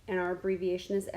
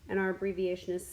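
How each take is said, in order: The two takes are said the same way.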